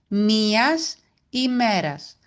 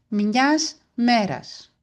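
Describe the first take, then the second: First: Both words are said in full, uncontracted form. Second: The words are shortened, with the vowel dropped. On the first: This is the correct standard form. "Το σωστό είναι η ημέρας" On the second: This is how it is said in fast everyday speech. "Έτσι θα το ακούσετε κι εσείς"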